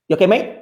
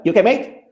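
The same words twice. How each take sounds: First: Cheery Cockney "You okay, mate?" with a rising end; imitating a London porter's quick greeting; a porter's friendly Cockney check-in; London accent. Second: The porter's Cockney "You okay, mate?" said again, rising at the end; imitating a London porter repeating himself; Cockney porter repeats his greeting; London accent. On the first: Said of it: "to quote what he said, including, like, the vibration and the accent". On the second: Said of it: "And then he's like".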